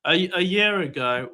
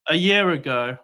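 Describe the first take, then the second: First: Slow, deliberate restart; speaking slowly. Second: Said in the usual way. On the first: Real, not acted. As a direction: spell it out slowly for impatient listeners. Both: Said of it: "I'll speak slowly".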